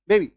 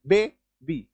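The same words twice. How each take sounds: First: Said in the usual way. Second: बे, बी split with a clear pause; बे and बी as two separate sounds; two syllables. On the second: Shown as a demonstration. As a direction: say बे, wait, then बी. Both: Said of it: "दो syllable आप use कर रहे हैं".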